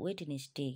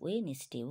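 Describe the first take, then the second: First: The middle 'd' sound is pronounced. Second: The middle 'd' sound is silent. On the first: The speaker calls it wrong. "এরকম বলে ফেলি ভুল বসত" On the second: The speaker calls it right. "এখানে ডিটা এমনি আসবে"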